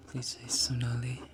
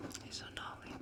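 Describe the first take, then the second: First: Said in the usual way. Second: Very soft whispered request. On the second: Shown as a demonstration. Streamer saying a requested name for a viewer, whispered. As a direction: whisper it right into the mic.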